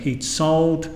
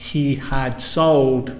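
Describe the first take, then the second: First: The word had is contracted to a 'd sound. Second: The word had is said in full. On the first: "a native speaker would say" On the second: "instead of saying"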